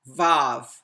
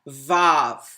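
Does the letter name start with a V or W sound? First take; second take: V; V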